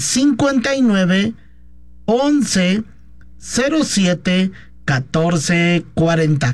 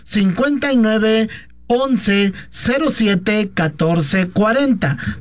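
First: The number is said more slowly. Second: The number is said at normal speed.

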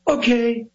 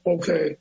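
First: It is said with a lively pop. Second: It is said flatly, without energy.

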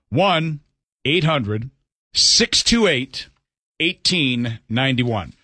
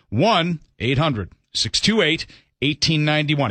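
First: It is said slowly. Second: It is said at normal speed.

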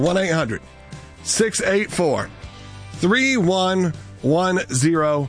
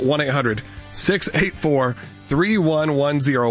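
First: The number is said slowly and deliberately. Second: The number is said at a normal, quick pace.

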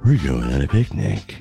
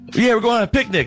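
First: It is said in a creepy, ominous tone. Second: It is said in a cheerful, upbeat tone.

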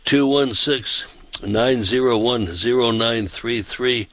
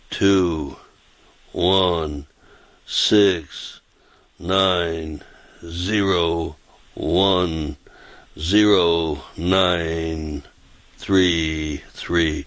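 First: The number is said fast. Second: The number is said slowly.

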